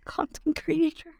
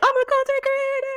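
First: It sounds hesitant and unsure. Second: It sounds proud and confident.

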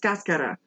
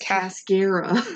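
First: It is said with a Spanish accent, rolled r. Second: It is said with an American accent, plain r. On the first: This is how it is said in coffee-growing Costa Rica. "Matt is from Costa Rica and he worked on a coffee farm. And he was like, oh, it's Cascara" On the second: This is how Americans say it. "for Americans, it's Cascara"

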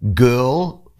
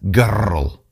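First: The R is said plainly, without a trill. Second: The R is rolled with a Scottish trill.

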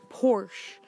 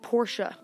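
First: It is said with one syllable, no final sound. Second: It is said with an extra sound at the end. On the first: The speaker calls it wrong. "some people call it Porsche" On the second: The speaker calls it right. "the correct pronunciation is Porsche. You kind of add the sound at the end"

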